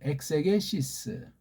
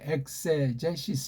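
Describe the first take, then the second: First: The middle consonant is a hard g sound. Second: The middle consonant is a soft j sound. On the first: This is the Greek pronunciation. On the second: This is the English pronunciation.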